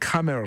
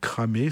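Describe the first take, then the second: First: The name ends with a sounded R. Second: The name ends in an open vowel, no R. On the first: The speaker calls it right. "on va dire Cramer, ça fera mieux" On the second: The speaker calls it wrong. "on va dire Cramé"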